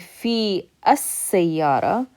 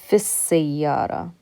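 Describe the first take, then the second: First: The two words are said separately. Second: The two words are linked into one. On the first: The speaker calls it wrong. "instead of saying" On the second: The speaker calls it right. "we're going to connect this fi to that scene"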